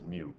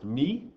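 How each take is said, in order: First: The vowel sounds like oo. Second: The vowel sounds like ee. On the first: This is how scientists say it. "every single online place I can find pronounces it as mu" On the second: This is how it is said in Greek. "in Greek it's actually pronounced me"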